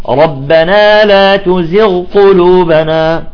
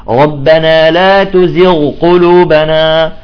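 No difference in how they are said.

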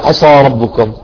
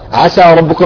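First: The s sound is heavy and emphatic. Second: The s sound is light and thin. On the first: The speaker calls it wrong. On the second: The speaker calls it right.

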